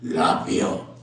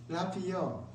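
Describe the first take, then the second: First: The word is said forcefully and strongly. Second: The word is said weakly, with a wavering voice. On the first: "강한 색깔로 아마 이렇게 나갔을 것 같아요" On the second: "목소리가 좀 힘이 빠지고 이 간들간들하면서"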